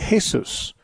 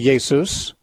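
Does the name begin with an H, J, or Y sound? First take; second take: H; Y. First: The name begins with an H sound. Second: The name begins with a Y sound. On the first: "the J is pronounced like an H" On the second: "in German the J is pronounced like a Y"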